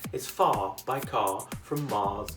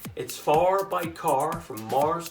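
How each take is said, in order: First: The vowels are held with no curled R. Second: The R sounds curl up after the vowels.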